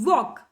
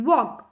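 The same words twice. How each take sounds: No difference in how they are said.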